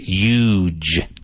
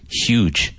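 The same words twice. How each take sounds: First: It is said with a New York accent. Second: It is said with a standard pronunciation. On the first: The speaker calls it wrong. "that's a trace of his New York accent" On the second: The speaker calls it right. "the correct pronunciation is huge"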